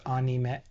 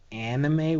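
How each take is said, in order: First: The first vowel is a Japanese-style a. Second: The first vowel is an American-style a. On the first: The speaker calls it right. "actually supposed to be pronounced anime or anime because Japanese" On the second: The speaker calls it wrong. "with a strong a"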